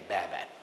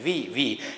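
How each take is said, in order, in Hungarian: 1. A b hanggal kezdődik, e-re végződik. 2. A v hanggal kezdődik, i-re végződik. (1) "mikor mindenki hallja, hogy azt mondják, hogy be" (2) "a mai görög gyerekek ránéznek erre a szövegre, és azt mondják, hogy vi"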